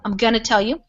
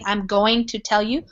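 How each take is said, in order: First: Going to is blended into one word, gonna. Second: Going to is said as two full words. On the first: "That's how we really talk" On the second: "Instead of saying"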